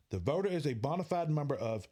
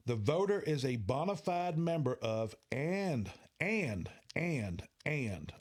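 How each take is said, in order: First: Said in the usual way. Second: And repeated and hit hard; stress on and. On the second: Shown as a demonstration. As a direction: lean on the word and, three times over. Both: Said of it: "I'm emphasizing and".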